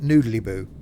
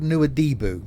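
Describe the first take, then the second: First: The name is said like 'Noodlyboo'. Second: The name is said in its usual form. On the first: The speaker calls it wrong. "but I pronounced it Noodlyboo" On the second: The speaker calls it right. "it's a place called Nuadhibu"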